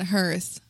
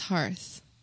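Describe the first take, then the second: First: The word does not sound like 'heart' plus th. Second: The word sounds like 'heart' plus th. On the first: The speaker calls it wrong. "You have offended our ears by pronouncing it hearth" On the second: The speaker calls it right. "clearly it is hearth. Like the word heart, but with an H on it"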